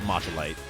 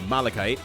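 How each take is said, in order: First: The word begins with a 'matcha' sound. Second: The word begins with a 'mala' sound. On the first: The speaker calls it wrong. "I'm going to now continue to pronounce it Machalite" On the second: The speaker calls it right. "now that I know how to pronounce uh"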